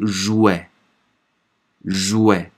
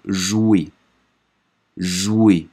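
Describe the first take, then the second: First: "jouer" ending in open "eh", like "jouet"; open final e. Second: "jouer" ending in a tight, closed "ay"; closed final e. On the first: Teacher drills the word-final spelling, "jouer" with open è. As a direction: open the last vowel of "jouer" to è. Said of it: "E 对在词末发". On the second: Teacher drills the -er spelling, "jouer" with closed é. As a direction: end "jouer" on a closed é, with silent r. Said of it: "e r 的话，A属于读". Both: Shown as a demonstration.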